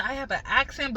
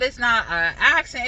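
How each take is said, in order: First: Said in the usual way. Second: "accent" hit louder and heavier; stress on accent. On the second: Shown as a demonstration. Vlogger saying theirs is no true island accent, "accent" stressed. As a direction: punch "accent" as if it means a real, strong one. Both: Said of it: "but it's not an accent".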